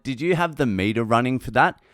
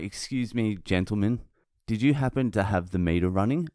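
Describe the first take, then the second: First: Said in the usual way. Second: Mock-courteous, softened opening; very polite. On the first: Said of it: "this is all I said". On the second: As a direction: retell it as an exaggeratedly polite request. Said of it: "I was very polite".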